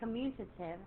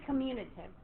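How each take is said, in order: First: The word is said carefully, with every sound pronounced. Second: The word is said loosely, with the middle sounds reduced. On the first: This follows the spelling exactly. "if I had to say commutative, I would get tongue-tied" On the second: This is how people normally say it. "we say commutative"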